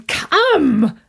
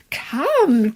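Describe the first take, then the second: First: Second come louder and higher, pushing harder; eager urging. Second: Said in the usual way. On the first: Acted. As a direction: press him to come along, more insistent. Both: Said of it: "my uncle said".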